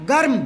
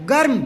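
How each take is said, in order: No difference in how they are said.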